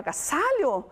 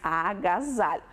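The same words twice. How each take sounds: First: The middle consonant is a hissing S sound. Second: The middle consonant is a buzzing Z sound. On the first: The speaker calls it wrong. "Se eu colocar dois S's, fica certo?" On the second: The speaker calls it right. "com o som de Z"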